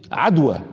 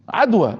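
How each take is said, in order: First: Said in the usual way. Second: عدوى said higher and pressed, both syllables firm; emphatic repeat. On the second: Shown as a demonstration. Repeating the answer to the congregation, with emphasis on عدوى. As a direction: lift عدوى and lean on it.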